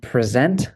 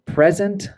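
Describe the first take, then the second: First: Pre-ZENT, with the stress on ZENT; weak first syllable in present, strong second. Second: PREZ-ent, with the stress on PREZ; first-syllable stress. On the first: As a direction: say present as the verb, pruh-ZENT. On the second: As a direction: say present as the noun, PREZ-unt. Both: Shown as a demonstration. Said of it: "it can change the pronunciation".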